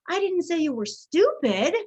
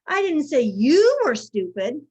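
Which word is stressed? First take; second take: stupid; you. First: The stress falls on the word stupid. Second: The stress falls on the word you. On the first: Something else was said about the listener. "I said you were something else" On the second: It was said about someone else. "I said so-and-so was stupid"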